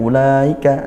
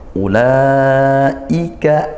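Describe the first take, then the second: First: The hamzah is softened and said lightly. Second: The hamzah is said firmly and strongly. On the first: The speaker calls it wrong. "nah itu di seperti tasil ya, diringankan, tidak" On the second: The speaker calls it right. "tapi kita baca tetap kuat syiddah"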